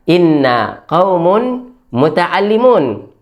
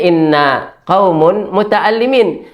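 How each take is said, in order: First: The last word ends with an 'oon' sound. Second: The last word ends with an 'een' sound. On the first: The speaker calls it right. "Yang benar harusnya adalah" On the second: The speaker calls it wrong. "mereka salah dalam berucap. Mereka mengucapkannya"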